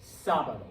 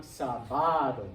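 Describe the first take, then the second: First: Sábado said SÁ-ba-do, falling after SÁ; stress on SÁ. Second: Sábado wrongly said sa-BA-do; stress on BA. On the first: Teacher gives the rule-breaking word, sábado stressed on SÁ. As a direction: hit the first syllable of sábado. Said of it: "put the accent on the A". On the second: Teacher shows what the rule would give, sábado stressed on BA. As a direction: punch the middle BA of sábado. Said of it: "be putting stress on ba". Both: Shown as a demonstration.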